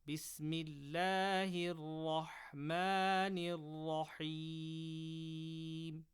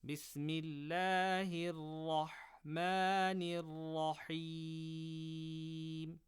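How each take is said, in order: Both takes have the same delivery.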